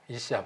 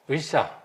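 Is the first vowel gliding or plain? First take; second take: plain; gliding. First: The first vowel is a plain 'ee'. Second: The first vowel glides from 'u' to 'ee'. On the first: The speaker calls it right. "이샤라고 발음을 하고" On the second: The speaker calls it wrong. "의샤가 아니고"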